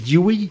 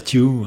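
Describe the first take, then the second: First: The name ends with an added 'ee' sound. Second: The name ends without a final vowel sound. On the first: "le Y, je ne sais pas comment on ferait pour le prononcer. Stewie, Stewie, peut-être" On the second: "On va dire Stew"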